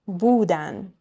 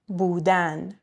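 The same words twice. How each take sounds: First: The stress is on the second-to-last syllable. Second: The stress is on the last syllable. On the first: It means they were. "Next to last syllable" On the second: It is the infinitive, to be. "Infinitives always stressed on the last syllable"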